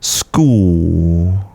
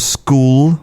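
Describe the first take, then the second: First: The final L is only half formed. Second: The final L is fully pronounced. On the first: "the tongue only comes a little bit up" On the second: "produce that L at the end, lifting your tongue and touching the roof of your mouth"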